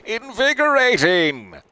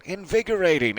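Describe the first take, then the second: First: Very high, loud, slow drawn-out shout; big yell. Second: Mild yell. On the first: Louise yelling from the water, long loud shout. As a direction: stretch it out like a whoop across the beach. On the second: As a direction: let the call drop away at the end. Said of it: "Louise yelling". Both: Acted.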